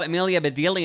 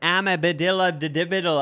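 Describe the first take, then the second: First: The name is said in its usual form. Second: The name is garbled with extra syllables. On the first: This is how the name is normally said. The speaker calls it right. "I heard it was called Amelia Bedelia" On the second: This is a child's misreading of the name. The speaker calls it wrong. "I was pronouncing it this whole different way"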